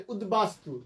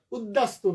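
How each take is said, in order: First: উদ্বাস্তু said as ud-bastu; b sounded. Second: উদ্দাস্তু said as ud-dastu, no b; mistaken doubled d. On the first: Teacher giving students the correction, ud-bastu with b. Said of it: "এখানে বফলা উচ্চারণ হবে". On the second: Teacher warning students off a mistake, ud-dastu. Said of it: "উচ্চারণটা উদ্দাস্তু না". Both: Shown as a demonstration.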